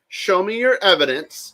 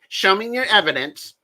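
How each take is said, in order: First: It is said in his normal voice. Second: It is said in a put-on Elaine voice.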